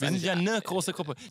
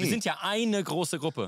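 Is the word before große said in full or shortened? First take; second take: shortened; full. First: The article is shortened to ne. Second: The article is said in full as eine. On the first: "Da kann man noch wenigstens sagen, es hört sich so an" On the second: "das ist die Abkürzung von eine"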